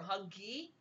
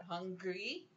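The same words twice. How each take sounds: First: "huggy" for hungry, n and r dropped, rising end; babyish mispronunciation. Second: "Hungry" drawn up at the end, lightly imitating a baby; mild baby cry imitation. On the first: Retold or imitated. Parent imitating the baby's hunger cry, babyish "huggy". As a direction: lightly mimic a baby's "huggy", lifting the last syllable. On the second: Parent imitating the baby's hunger cry, "Hungry" with rising end. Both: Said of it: "she has a certain cry that comes out".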